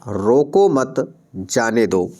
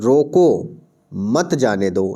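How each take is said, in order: First: The pause comes after the word 'mat'. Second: The pause comes after the word 'roko'. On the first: Do not stop the person; let them go. "यानी किसी को रोकना नहीं है, जाने देना है" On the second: Stop the person; do not let them go. "यानी उस व्यक्ति को रोको, जाने मत दो"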